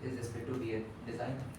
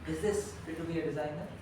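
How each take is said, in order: First: It is said in a flat, even voice. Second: It is said with varied, expressive pitch. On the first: The speaker calls it wrong. "Rather than being flat" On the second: The speaker calls it right. "Adds in a lot more emotional connect"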